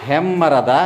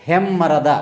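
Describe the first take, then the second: No difference in how they are said.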